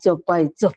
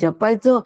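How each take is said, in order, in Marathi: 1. शब्द 'dz' आवाजाने सुरू होतो. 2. शब्द 'j' आवाजाने सुरू होतो. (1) "फक्त उच्चारण्यामध्ये फरक झाल्याबरोबर त्याचा अर्थ केवढा बदलला" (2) "फक्त उच्चारण्यामध्ये फरक झाल्याबरोबर त्याचा अर्थ केवढा बदलला"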